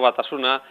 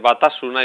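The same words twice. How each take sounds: First: The stress is on the penultimate syllable. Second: The stress is on the second syllable. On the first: The speaker calls it wrong. "y no" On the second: The speaker calls it right. "Cuando hay cuatro sílabas siempre hay que hacer así"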